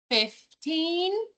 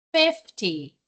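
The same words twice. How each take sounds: First: Put-on fifteen with a rising, stressed teen. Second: Fifty with a strong fif and a low falling end; stress on fif. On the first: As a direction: punch the end of fifteen. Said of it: "a pronúncia do teen é bem pronunciada". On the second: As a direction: hit the front of fifty. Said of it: "a primeira parte da palavra é a mais forte". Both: Shown as a demonstration.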